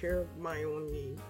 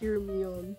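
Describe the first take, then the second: First: The name is said in four syllables. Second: The name is said in fewer syllables. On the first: The speaker calls it right. "Her as in the word her. My as in my friend. O and me" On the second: The speaker calls it wrong. "For the longest time, I thought it was"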